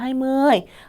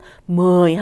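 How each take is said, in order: First: The word has a level tone. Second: The word has a falling tone. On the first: "이십 하고 성조가 없어지는 거" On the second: "십 하고 내렸지만"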